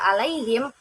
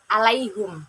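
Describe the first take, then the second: First: The word ends in him, with an i vowel. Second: The word ends in hum, with a u vowel. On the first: "membaca kata alaihim" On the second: "dengan dhammah, jadi alaihum"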